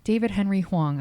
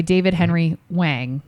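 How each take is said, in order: First: Hwang said "hwong", with an open AW vowel; softer careful "Hwang", rhyming with "song"; corrected pronunciation. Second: Hwang said as "wang", rhyming with "hang"; unsure mispronunciation. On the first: Host repeats the name after guest's correction, carefully pronounced. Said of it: "Yeah, Huang". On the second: Host reading guest's bio unsure of a name, mispronounced. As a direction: try "Hwang" uncertainly, with the flat A of "hang". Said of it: "I hope I'm saying that right". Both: Real, not acted.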